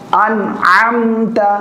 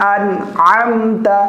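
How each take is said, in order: The two takes are said the same way.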